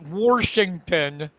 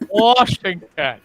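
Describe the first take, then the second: First: The first syllable has an added r sound. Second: The first syllable has no r sound. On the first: This is how some locals say it. The speaker calls it wrong. "not Washington" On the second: This is the standard way to say it. The speaker calls it right. "It is Washington"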